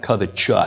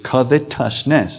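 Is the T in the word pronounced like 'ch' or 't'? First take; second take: ch; t. First: The T is pronounced like 'ch', as in righteous. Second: The T is pronounced as a plain 't' sound. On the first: The speaker calls it wrong. "you don't pronounce that covetous. There's no E after the T as in righteous" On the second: The speaker calls it right. "It's covetousness"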